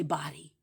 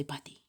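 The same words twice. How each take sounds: First: "body" with an open AH in the first syllable; their pronunciation. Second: "body" as a soft, short "putty"; changed-tongue pronunciation. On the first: Showing how they say it, open-vowel "body". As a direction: say "body" as BAH-dee. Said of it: "they say body". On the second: Answering a stranger with changed tongue, soft "buddy"-like "body". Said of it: "I just changed my tongue". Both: Shown as a demonstration.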